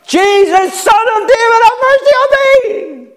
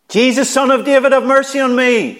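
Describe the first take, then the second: First: It is screamed with raw, intense emotion. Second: It is called out at ordinary volume.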